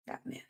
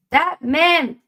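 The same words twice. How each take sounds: First: "That man." under the breath, nearly silent; muttered. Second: "That man." loud and high, falling hard; exasperated outburst. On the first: Streamer mutters about Ten Hag, under the breath. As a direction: drop to a near-silent mutter. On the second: Streamer erupts about Ten Hag, loud exasperation. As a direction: blurt "That man." out loud in disbelief. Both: Acted.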